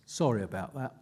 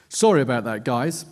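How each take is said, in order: First: Softer and lower, almost to himself; repeated apology. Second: The quote pushed out louder, apologetic; mellow British voice. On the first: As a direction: drop it down, a throwaway repeat. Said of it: "Then he repeats himself". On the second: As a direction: say it up front as if over party noise. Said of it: "he says in a mellow British accent". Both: Retold or imitated.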